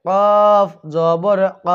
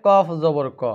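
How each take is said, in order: First: কফ জবর ক very slow and louder, stressed; correct pronunciation. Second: কফ জবর ক said plainly as the mistake; wrong pronunciation. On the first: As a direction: model it firmly. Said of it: "এটা বলতে হবে". (জোর দিয়ে ধীরে সঠিক উচ্চারণ) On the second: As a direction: mimic the error. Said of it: "অনেকেই বলে". (ভুল উচ্চারণের নকল) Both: Shown as a demonstration.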